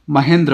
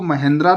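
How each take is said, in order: First: महेंद्र ending on a short "dra", no long aa; correct short ending. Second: महेंद्रा ending in a full long "aa"; wrong final long aa. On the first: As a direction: keep the last vowel of महेंद्र very short. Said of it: "इसको महेंद्रा नहीं पढ़ेंगे". (महेंद्र, अंत में छोटा "द्र") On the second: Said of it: "नहीं पढ़ेंगे". (महेंद्रा, आख़िर में लंबा "आ") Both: Shown as a demonstration.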